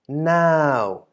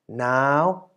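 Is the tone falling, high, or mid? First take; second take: falling; high. First: The syllable is said with a falling tone. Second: The syllable is said with a high tone. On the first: "resulting in a falling syllable" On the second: "resulting in a high tone"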